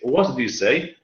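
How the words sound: The stress falls on the word say. "Like say"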